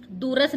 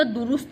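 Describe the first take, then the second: First: दूरस्थ with a after र; wrong form. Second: दुरुस्त with u twice; correct form. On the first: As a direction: say दूरस्थ as doo-rast. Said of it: "दूरस्थ नहीं होता". (गलत उच्चारण, दूरस्थ) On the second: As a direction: say दुरुस्त as du-rust. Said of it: "दुरुस्त होता है". (सही उच्चारण, दुरुस्त) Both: Shown as a demonstration.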